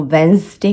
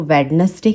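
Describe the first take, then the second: First: वेडनेसडे as "wenz-day"; two-syllable वेडनेसडे; silent D. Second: वेडनेसडे as "wed-nes-day"; others' mistake, three-syllable वेडनेसडे; D pronounced. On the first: Shown as a demonstration. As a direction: drop first D in वेडनेसडे. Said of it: "मैंने बहुत लोगों को सुना है". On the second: Retold or imitated. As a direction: sound the first D in वेडनेसडे. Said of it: "वेडनेसडे कहते".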